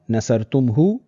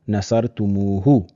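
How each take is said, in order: First: The m runs straight into h with no vowel. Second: A short u vowel separates m and h. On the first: The speaker calls it wrong. "the pronunciation is a bit interrupted" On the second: The speaker calls it right. "read much more fluently"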